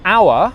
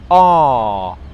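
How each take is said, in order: First: The vowel glides through three vowel sounds. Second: The vowel is a single long ah sound.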